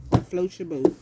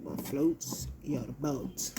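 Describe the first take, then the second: First: Loud, challenging ask; loud question. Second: Drawn-out, slower question, normal volume; slow, musing repeat. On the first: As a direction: punch it out loud, almost a shout. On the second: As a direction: stretch out "What floats your boat?" slowly. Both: Real, not acted. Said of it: "That's how I see it".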